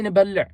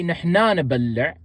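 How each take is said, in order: First: نبلع alone, short nəbələ with falling end; teacher models the short form نبلع; Tigrinya word demo. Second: نحنا نبلع said as nəhna nəbəllə; teacher models نحنا نبلع; Tigrinya phrase demo. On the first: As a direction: say just نبلع, crisp. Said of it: "You can just say". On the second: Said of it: "you don't have to say". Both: Shown as a demonstration.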